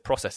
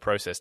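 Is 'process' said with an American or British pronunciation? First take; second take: American; British. First: It is said with an American pronunciation. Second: It is said with a British pronunciation. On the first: The speaker has picked up the local way of speaking. The speaker calls it wrong. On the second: This is the speaker's own usual way of speaking. The speaker calls it right.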